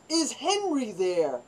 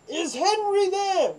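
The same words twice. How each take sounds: First: Said in the usual way. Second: High, loud, slow echo of the name; mock guard echo. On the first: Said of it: "So we go". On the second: Barracks guard repeating the caller's question, high and slow. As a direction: drag it out high like a puzzled guard.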